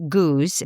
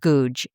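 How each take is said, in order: First: The name ends with an s sound. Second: The name ends with a j sound. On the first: "In Britain, actually, her name is pronounced Goose" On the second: "I pronounce it the way it's spelled"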